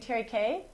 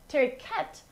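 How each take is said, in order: First: The word ends without a final consonant sound. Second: The word ends with a sounded final consonant. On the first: This is the standard French pronunciation. "I guess proper French would be Terry K" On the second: This is how the region pronounces it. "in this region, they actually use the end, the last, or they pronounce the last syllable"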